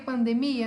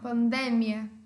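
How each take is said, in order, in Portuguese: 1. Dita com a tonicidade do português. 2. Dita com a tonicidade do espanhol. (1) "mas eu falei pandemia na hora de ler? Não" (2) "Não, pandemia"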